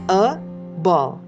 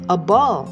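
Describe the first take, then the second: First: The article is said as a full 'ay' sound. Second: The article is said as a weak 'uh' sound. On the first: The speaker calls it wrong. "kita tidak a ball" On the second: The speaker calls it right. "tapi a ball"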